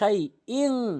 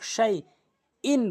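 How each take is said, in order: First: The final n is hidden and nasalized. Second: The final n is a clear n. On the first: The speaker calls it right. "ইন বলতে হবে শাই ইং, ইকফা গুন্না।" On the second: The speaker calls it wrong. "অধিকাংশ লোক শাই ইন বলে।"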